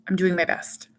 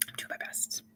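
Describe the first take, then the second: First: Said in the usual way. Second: Whispered under the breath; a whispered echo to herself. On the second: Shown as a demonstration. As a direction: breathe it as a near-silent whisper. Repeats phrase, then whispers it.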